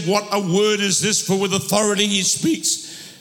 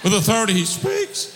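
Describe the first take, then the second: First: Voice giving out. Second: Ringing preacher's shout; forceful retake. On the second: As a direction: belt out the line again, stronger. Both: Real, not acted. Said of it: "There's my throat's gone".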